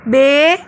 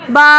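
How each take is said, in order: First: The letter name ends in an 'e' vowel. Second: The letter name ends in an 'a' vowel. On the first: The speaker calls it wrong. "Urdu तलफ़्फ़ुज़ से परहेज़ करें, यानी बे" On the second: The speaker calls it right. "बल्कि अरबी लहजे में बा"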